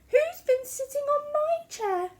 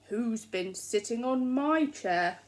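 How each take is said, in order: First: The voice is soft, quiet and gentle. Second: The voice is loud, deep and growly. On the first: "said Mother Bear in her soft gentle voice" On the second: "said Daddy Bear in his loud growly voice"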